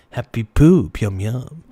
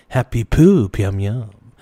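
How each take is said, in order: Both takes have the same delivery.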